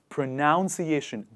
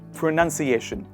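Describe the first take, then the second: First: The second syllable sounds like 'noun'. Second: The second syllable sounds like 'nun'. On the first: The speaker calls it wrong. "they say pronunciation" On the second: The speaker calls it right. "there is none, not noun"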